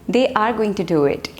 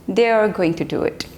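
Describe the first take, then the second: Both takes have the same delivery.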